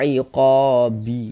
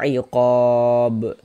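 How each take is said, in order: First: The word ends with an added short i vowel. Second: The word ends on a stopped, bounced b sound. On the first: The reading carries on without a pause. The speaker calls it wrong. "Jangan dibaca iqabi" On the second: The reader pauses on this word. The speaker calls it right. "Ini kita baca iqab"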